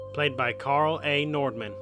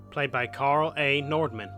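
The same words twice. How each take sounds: The two takes are said the same way.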